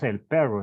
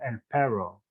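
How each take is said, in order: First: The R is strongly trilled, native Spanish style. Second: The R is untrilled, like an English speaker.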